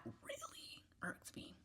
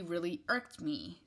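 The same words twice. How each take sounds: First: Slow, drawn-out whisper; hushed, deliberate, irritated whisper; emphatic whisper. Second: Said in the usual way. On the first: Real, not acted. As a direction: whisper it slowly, stretching each word.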